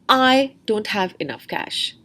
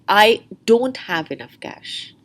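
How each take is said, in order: First: The stress falls on the word I. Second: The stress falls on the word don't. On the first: "The stress is on the person I" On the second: "Or the stress could be on don't"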